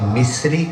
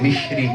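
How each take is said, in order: First: The middle consonant is a plain 's' sound. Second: The middle consonant is an 'sh' sound. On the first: This is how the local audience says it. "आप मिस्री कहते हैं" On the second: This is how Kashmiris say it. "Kashmir ये मिश्री कहते हैं"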